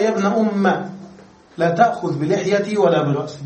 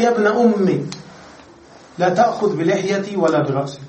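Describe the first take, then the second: First: يا ابن أم with the last vowel a, no i; teacher reads the variant reading with أم ending in a. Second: يا ابن أمي with long final i; teacher reads the verse with أمي ending in a long i. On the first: نطق أم بالفتح. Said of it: "وفي قراءة قال". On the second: نطق أمي بالياء. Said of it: "قال". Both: Shown as a demonstration.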